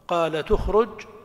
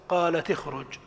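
First: The linking vowel after qalat is u. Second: The linking vowel after qalat is i. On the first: It follows the u of the next syllable. "لك الضم" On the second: It keeps the original vowel. "أو الكسر"

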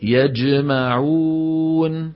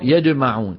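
First: The j is a clear j sound. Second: The j is mixed with a d sound. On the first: The speaker calls it right. "الصواب يقول" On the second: The speaker calls it wrong. "والخطأ"

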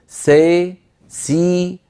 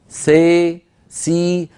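Both takes have the same delivery.

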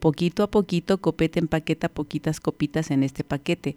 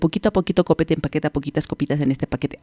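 First: It is said at a moderate, ordinary speed. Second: It is said very fast, at top speed.

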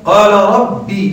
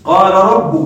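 First: The final word ends with a short i vowel. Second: The final word ends with a short u vowel. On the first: This is the standard accepted reading. The speaker calls it right. "بحرف الياء وكسر الباء وهذه الفصحى" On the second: This is a rare irregular reading. The speaker calls it wrong. "لكنها قراءة شاذة"

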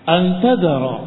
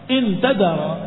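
First: The first word begins with an 'a' vowel. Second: The first word begins with an 'i' vowel. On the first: It gives a reason: because you leave them. "Dengan difathahkan hamzahnya, bukan inna tapi anna" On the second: It sets a condition: if you leave them. "Kalau dengan kasrah"

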